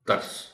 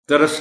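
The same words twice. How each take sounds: First: The middle consonant is said with no vowel. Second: A vowel is added after the middle consonant. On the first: The speaker calls it right. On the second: The speaker calls it wrong.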